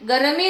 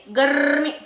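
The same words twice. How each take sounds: First: गर्मी said as "ga-ra-mee"; three syllables in गर्मी, vowel after the r; wrong split pronunciation. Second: गर्मी as "garrr-mee"; long trill in गर्मी, no vowel after the r; correct rolled r. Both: Shown as a demonstration. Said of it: "गर्मी नहीं".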